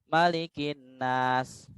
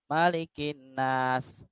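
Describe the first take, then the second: No difference in how they are said.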